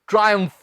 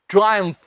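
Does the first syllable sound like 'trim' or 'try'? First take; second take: try; try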